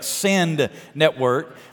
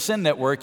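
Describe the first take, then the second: First: The D at the end of 'Send' is clearly pronounced. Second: It is said fast and the D is dropped. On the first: The speaker calls it right. "I have to always enunciate the D" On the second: The speaker calls it wrong. "say real fast"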